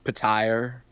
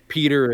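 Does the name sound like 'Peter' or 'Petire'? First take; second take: Petire; Peter. First: The name is said as Petire. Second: The name is said as Peter. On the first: This is how the narrator says it. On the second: This is the usual name.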